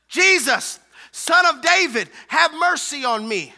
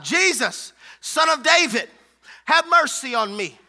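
First: High, forceful hollered plea; louder shout. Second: Raised, loud calling out; hollered cry. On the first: Blind man refuses to be silenced by the crowd, shouting louder. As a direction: shout it out over the hushing. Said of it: "And he shouted louder". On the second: Blind Bartimaeus calls to Jesus passing by, hollering. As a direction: holler it out as a plea. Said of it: "and he hollers out". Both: Acted.

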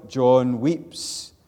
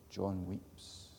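First: John weeps called out loud and high; loud pulpit cry; ringing proclamation. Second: John weeps said much softer; soft, subdued restatement; hushed echo. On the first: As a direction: declare it to the back row. Preacher proclaims John's weeping. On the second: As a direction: let it fall quietly this time. Quiet echo of earlier cry. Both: Acted.

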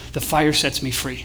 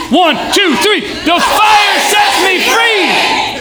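First: Slow, low and soft; hushed, measured mantra; quiet declaration. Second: Very high, long-held yell; full-throated crowd battle cry; all-out rallying shout. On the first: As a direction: say it slowly, like a meditation. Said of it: "that you just say". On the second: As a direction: count in, then rip each word. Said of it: "So that security shows up". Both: Shown as a demonstration.

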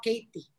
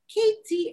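First: KATIE with a soft middle, no hard T; intended Katie. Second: KATIE with a crisp, hard T. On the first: Shown as a demonstration. Daughter gives what mom meant to say, soft KATIE. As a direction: KATIE said low and easy, T softened. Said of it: "did not come out Katie". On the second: Retold or imitated. Daughter mimics how it came out of mom, hard-T KATIE. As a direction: KATIE pitched high, the T hit hard. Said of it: "that's a hard T".

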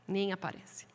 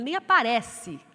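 First: Nem aparece dropped much softer and lower; quiet take. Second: Nem aparece said louder, a firm punch; "Nem aparece" hit out strong and loud; louder take. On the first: Preacher repeating that the Bible barely shows up, soft and quiet. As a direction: let "Nem aparece" fall away, softly and low. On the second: Preacher stressing the Bible barely shows up, said loudly. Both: Shown as a demonstration.

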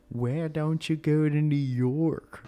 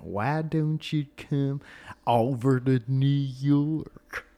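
First: Put-on slow, pitched-up stab at a New York accent; a failed New York accent, slow and loud; bad New York accent. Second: Put-on slow, drawn-out New York accent. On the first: Fan asking about New York, in a bad New York accent. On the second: Retrying the New Yorker fan line, in a slow New York accent. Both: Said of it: "I can't do a New York accent".

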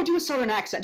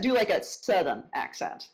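First: Said in the usual way. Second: Southern accent. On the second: Shown as a demonstration. Host prompting guest for Deep South, Southern accent.

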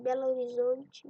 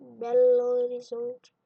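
First: Said in the usual way. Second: "Belo Horizonte" slow, loud and drawn out; loud, lingering stress on "Belo Horizonte"; emphatic repeat. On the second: Acted. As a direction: stretch "Belo Horizonte" out loudly, word by word.

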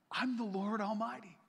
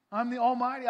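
First: Said in the usual way. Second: Louder, higher proclamation; booming God voice. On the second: Acted. God declaring himself to Abram, booming.

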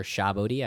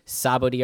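First: "Shabodi" as shah-BOH-dee; SH pronunciation. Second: "Sabodi" as sah-BOH-dee; S pronunciation. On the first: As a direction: begin "Shabodi" with sh. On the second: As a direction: begin "Sabodi" with a plain s. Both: Shown as a demonstration. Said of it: "I don't know which way is proper".

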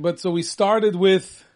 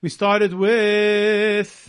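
First: Drawn out "started with"; slow, deliberate setup for the list; slow recap. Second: "started with" stretched very slowly, teasing; mock slow echo. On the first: Acted. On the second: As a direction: drag it out to tease the cohost. Mocking echo of cohost.

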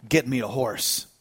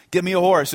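First: Low, soft and resolute; hushed, low-pitched command; grave quiet order. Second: Said in the usual way. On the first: Retold or imitated. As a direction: give the order gravely under your voice. John's resolute order after grief.

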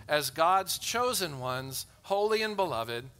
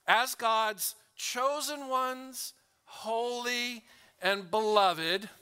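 First: Said in the usual way. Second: "as God's chosen ones, holy and beloved" drawn out slowly, pitched higher; very slow reading. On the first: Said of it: "not to speed read". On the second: Shown as a demonstration. Preacher modelling slow reading of the verse to the church. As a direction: savour each word, stretched out. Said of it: "Let's read these words slow".

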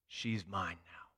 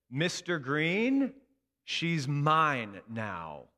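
First: Softer, lower, slow; quiet echo. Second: Slow, loud and firm; firm stand-off. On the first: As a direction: let the memory land softly. Remembered words, quiet echo. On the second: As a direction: plant your feet and claim her. Teacher confronts angry colleague. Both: Retold or imitated.

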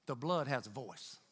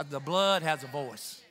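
First: Softer, lower, plainly stated; hushed, low statement; quiet first statement. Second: Deliberate, emphatic restatement; emphatic repeat. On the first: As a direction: drop your voice and lay it down. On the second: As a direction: lean on "blood" and draw out "voice". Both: Shown as a demonstration.

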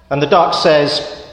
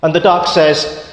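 The two takes are said the same way.

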